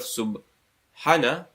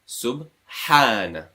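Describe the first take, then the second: First: The vowel after the h is short. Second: The vowel after the h is long. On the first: The speaker calls it wrong. "instead of subhana" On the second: The speaker calls it right. "two counts"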